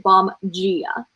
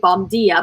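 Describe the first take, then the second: First: The d in dia is not a plain d. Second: The d in dia sounds like a plain d. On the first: The speaker calls it right. "but it's actually bom dia, even though it's D I A" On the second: The speaker calls it wrong. "I want to say bom dia"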